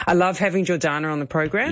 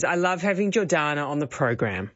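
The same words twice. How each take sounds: First: Rising, a bit airy-fairy; "I love having Jordana on the program" rising at the end; upward inflection. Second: "I love having Jordana on the program" falling on "program"; downward inflection. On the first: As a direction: let "program" float up without conviction. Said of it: "do I sound like I mean it". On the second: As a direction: settle into certainty at the end. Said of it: "You're settling into that certainty". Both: Shown as a demonstration.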